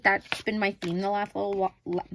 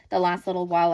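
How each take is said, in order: First: Tripping over "the last little while", words blurred together; tongue-tied stumble. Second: Said in the usual way. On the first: Real, not acted. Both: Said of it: "Oh, tongue-tied".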